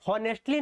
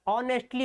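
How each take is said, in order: First: The word begins with an audible H sound. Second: The word begins directly with a vowel sound. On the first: The speaker calls it wrong. "हॉनेस्टली नहीं होता" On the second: The speaker calls it right. "ऑनेस्टली होता है"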